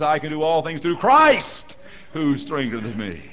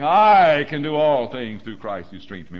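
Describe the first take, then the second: First: The stress falls on the word Christ. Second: The stress falls on the word I. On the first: The power comes from Christ. The speaker calls it right. "The emphasis is in His hand and His power" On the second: The power comes from oneself. The speaker calls it wrong. "I had the emphasis on the wrong syllable. I was saying"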